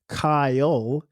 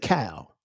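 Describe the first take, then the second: First: The name is said with two syllables. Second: The name is said with one syllable. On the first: The speaker calls it right. "instead of making it a two syllable word" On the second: The speaker calls it wrong. "they'll say Cal, like C A L. But my name isn't pronounced like that"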